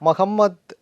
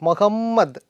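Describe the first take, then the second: The two takes are said the same way.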